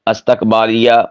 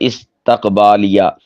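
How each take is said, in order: First: It starts with a and has a after t. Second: It starts with i and has a after t. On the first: "ये लफ्ज़ इस्तेमाल कर देते हैं" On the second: "ये लफ्ज़ इस्तेमाल कर देते हैं"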